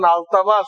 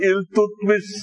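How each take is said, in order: First: The name is said as Altamas. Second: The name is said as Iltutmish. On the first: The speaker calls it right. "ওনার নাম হলো আলতামাস" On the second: The speaker calls it wrong. "আপনারা বলেন ইলতুতমিস, ইলতুতমিস না"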